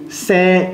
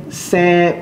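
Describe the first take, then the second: No difference in how they are said.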